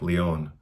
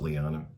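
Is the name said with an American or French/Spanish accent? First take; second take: French/Spanish; American. First: The name is said with a Spanish/French pronunciation. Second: The name is said with an American pronunciation.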